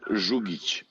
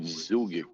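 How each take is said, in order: First: The name is said with non-English sounds. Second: The name is said with English sounds. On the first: This is how the family itself says it. "when I pronounce it, it's gonna sound weird to you because I'm gonna use uh, some voices that you uh, don't use in English" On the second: This is how people here say it. "like from here, people call it Zugic"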